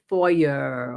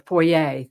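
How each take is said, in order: First: "foyer" said slowly, as one local pronunciation; foyer, other way. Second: "foyer" said the other way, at normal speed; foyer, second way. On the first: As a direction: stretch out "foyer" the way they say it over there. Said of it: "They used to say". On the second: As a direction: contrast "foyer" with the first version. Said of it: "or foyer". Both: Shown as a demonstration.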